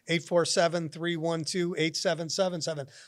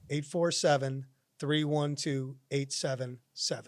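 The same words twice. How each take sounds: First: The number is read at a quicker pace. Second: The number is read at a slower pace.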